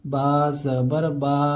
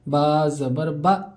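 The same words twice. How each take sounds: First: The final vowel is stretched out long. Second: The final vowel is cut off with a jerk. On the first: "खींच कर भी नहीं पढ़ना है ... ये भी गलत है।" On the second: "इस तरह झटके के साथ पढ़ते हैं। ऐसा नहीं पढ़ना है, ये गलत है।"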